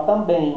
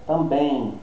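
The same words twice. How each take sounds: First: "também" drawn to a closed-lip M; "também" with a hummed English-style M; exaggerated final M. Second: "também" ending in a nasal glide, mouth open; everyday Portuguese "também", no M closure; nasal ending only. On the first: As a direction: shut your lips on the end of "também". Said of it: "Poderia, né? Mas a gente não faz". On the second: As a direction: leave the lips open at the end of "também". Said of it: "vira e fica nasalado só". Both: Shown as a demonstration.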